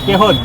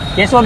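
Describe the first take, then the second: First: The middle consonant is a soft h sound. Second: The middle consonant is a clear sh sound. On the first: This is how local people say it. "અમારા ભાઈની speech આખી અલગ છે" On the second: This is the standard name of the town. "કેશોદ જ કહેવાય ને"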